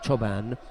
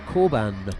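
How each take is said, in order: First: The name begins with a 'ch' sound. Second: The name begins with a 'k' sound. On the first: This is how the name is said in Turkish. "Choban is a Turkish name, and that's how you pronounce C O, Cho" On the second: This is how the name is said in Germany. "But in Germany, it's Korban. ... Like almost like K"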